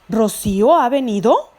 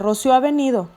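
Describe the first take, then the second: First: It rises at the end, like a question. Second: It is said flat, like a plain statement.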